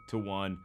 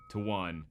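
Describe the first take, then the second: No difference in how they are said.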